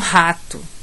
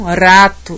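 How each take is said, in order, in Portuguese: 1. O primeiro r é um r forte e marcado. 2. O primeiro r é um toque leve e simples. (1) "e não rato" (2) "elas pronunciam rato"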